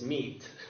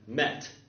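First: The vowel is a long 'ee' sound. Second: The vowel is a short 'eh' sound. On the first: This is how the word sounds today. "And now it's meat" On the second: This is how the word sounded around the 1500s. "in about the 1500s, this word was pronounced, I think, met"

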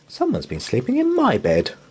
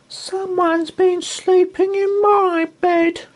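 First: It is said in a normal voice. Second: It is said in a tiny, squeaky voice.

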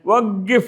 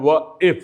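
First: The middle consonant is a back q sound. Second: The middle consonant is a glottal stop. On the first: This is the standard way to say it. "വഖിഫ് എന്ന് പറയുന്നതിന് പകരം" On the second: This is the everyday dialect way to say it. "ക എന്ന അക്ഷരത്തിന് അവർ ആ എന്നാണ് പറയുക"

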